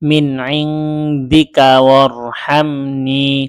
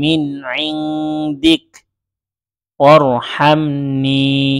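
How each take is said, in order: First: 'Indika' runs straight into the next word. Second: There is a stop after 'indik'. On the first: "এভাবেও মিলিয়ে পড়তে পারবেন" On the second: "এখানে ওয়াকফ করেছি"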